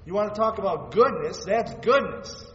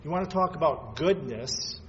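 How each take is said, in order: First: Louder and higher, hitting the climax; building preacher's cry. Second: Said in the usual way. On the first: Acted. Pastor to congregation on the cross, preaching at full force. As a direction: preach it out, voice rising high.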